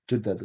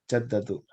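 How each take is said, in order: First: The first vowel is an 'u' sound. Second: The first vowel is an 'a' sound. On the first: The speaker calls it right. "yang benar Judatu" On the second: The speaker calls it wrong. "Sebelumnya saya menganggap itu fathah"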